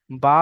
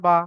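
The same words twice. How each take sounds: First: "বা" held long on its vowel; one-alif stretch. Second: Final "বা" short, vowel not held; no stretch. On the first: Teacher showing students the letter's sound, "বা" stretched. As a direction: draw out the vowel of "বা". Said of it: "তখন একালিফ টান দিচ্ছি". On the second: Teacher showing the sound with zabar, "বা" unstretched. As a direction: say "বা" briefly and release it. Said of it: "তখন কোনো টান হবে না". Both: Shown as a demonstration.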